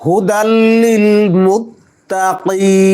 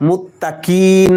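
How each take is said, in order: First: মুত্তাকিন with a deep throat qaf, slow; মুত্তাকিন, qaf from the back of the throat. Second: মুত্তাকিন with a plain k; মুত্তাকিন, light front k; wrong qaf. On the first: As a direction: recite মুত্তাকিন with a full qaf. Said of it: "কফকে সুন্দরভাবে উচ্চারণ করতে হবে". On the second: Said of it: "মুত্তাকিন বললে কফের উচ্চারণ হলো না". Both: Shown as a demonstration.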